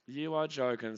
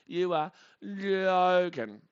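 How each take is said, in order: First: Said in the usual way. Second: Slow, high and loud, stretching "joking"; exasperated, dragging the words right out; drawn-out disbelief. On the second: Real, not acted. Fan reacting to a walk, drawn-out disbelief.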